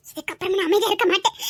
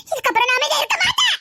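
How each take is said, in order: First: Low-pitched, contained resolve; low, determined vow. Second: Defiant outburst, voice lifted; raised, defiant vow. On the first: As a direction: make the vow low and held in. Vows to act, first low. (தாழ்ந்த, உறுதியான குரல்) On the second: Same vow repeated, raised voice. (உயர்த்திய, எதிர்ப்புக் குரல்) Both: Acted.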